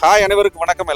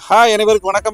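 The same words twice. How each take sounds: First: Faint air noise is heard behind the voice. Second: No air noise is heard behind the voice. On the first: The speaker calls it wrong. "Noise ரெடியூசர்ல வந்து வின்மப் போடாம பேசிட்டு இருக்கேன்" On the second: The speaker calls it right. "வின்மப் வந்து fix பண்ணியாச்சு"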